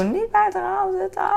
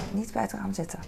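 First: Much higher, louder imitated yell at her son; mock yell. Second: Said in the usual way. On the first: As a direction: shriek the warning like an exasperated mom. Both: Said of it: "Dus ik gil nog af en toe".

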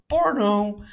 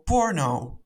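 First: "porno" said high and drawn out with relish; "porno" sung out playfully high; savoring the word. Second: Said in the usual way. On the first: Shown as a demonstration. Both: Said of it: "ik vind het zo lekker horen".

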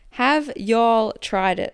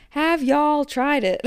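First: Said in the usual way. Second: High, drawn-out American twang; slow, hammed-up imitation of an American accent. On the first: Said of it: "wanna say that in his accent". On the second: Podcast host mimicking listener's question, playful American accent. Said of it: "say that in his accent".

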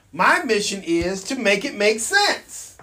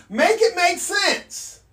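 First: Said in the usual way. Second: "Make it make sense" higher and slowed, each word pressed; emphatic slow repeat. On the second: Real, not acted. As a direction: hammer the slogan home. Repeated rallying phrase.

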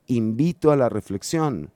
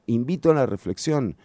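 The two takes are said the same way.

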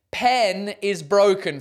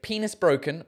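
First: Slow "pen is broken", PEN and IS separate; corrected as two words. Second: "Penis broken" with PENIS as one word; misread as one word. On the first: Realising what the sign meant, slowly split words. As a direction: split it into "pen", short e, then "is". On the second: Puzzling over a listener's sign, misread as one word. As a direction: run "Penis" together, long ee. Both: Shown as a demonstration. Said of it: "trying to figure out what that should be".

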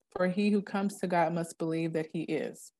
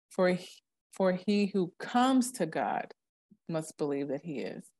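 First: Said in the usual way. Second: Slow, weighted phrasing with a pause before must believe; slow emphatic reading. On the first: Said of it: "So I'll go". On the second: Shown as a demonstration. Reading scripture aloud to a friend, slow and emphatic. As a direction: read For he who comes to God slowly, each word weighted. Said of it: "I use inflections when I talk".

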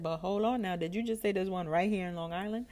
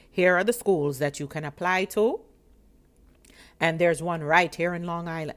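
First: Higher, questioning echo with rising end; intrigued double-check. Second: Loud, businesslike official announcement; serious clerk. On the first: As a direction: check eagerly what was just said. Repeats clerk's words in disbelief. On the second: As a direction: imitate a clerk firmly listing options. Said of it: "And she was so serious". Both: Retold or imitated.

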